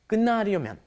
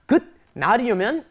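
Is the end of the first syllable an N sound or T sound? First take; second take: N sound; T sound. First: The first syllable ends with an N sound. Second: The first syllable ends with a T sound. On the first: The speaker calls it right. "It turns into an N" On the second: The speaker calls it wrong. "It's not"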